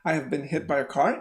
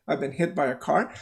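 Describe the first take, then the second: First: The auxiliary is said in full as 'have'. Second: The auxiliary is contracted to 've.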